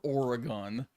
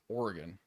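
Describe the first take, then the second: First: The word is said carefully with a full middle. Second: The word is said quickly with a clipped middle. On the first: The speaker calls it wrong. "It's not actually said as Oregon" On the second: The speaker calls it right. "we're very lazy speakers. So, like, it's just Oregon"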